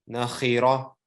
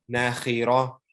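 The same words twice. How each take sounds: The two takes are said the same way.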